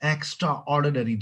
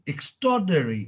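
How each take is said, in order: First: It is said as two separate full words. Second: It is run together into one reduced word. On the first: The speaker calls it wrong. "जी नहीं" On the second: The speaker calls it right. "गोरा ऐसे ही बोलते हैं ये"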